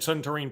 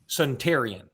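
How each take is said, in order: First: The name ends with one syllable, 'een'. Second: The name ends with two syllables, 'ee-an'. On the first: The speaker calls it wrong. "I have also said Suntarine Perkins" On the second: The speaker calls it right. "It is pronounced, ... Suntarian"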